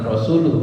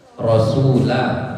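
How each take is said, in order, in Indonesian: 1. Kata ini diakhiri dengan vokal 'u'. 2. Kata ini diakhiri dengan vokal 'a'. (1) "Yang biasa orang salah baca itu sami'tu rasulu, bukan rasulu" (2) "tapi rasulah"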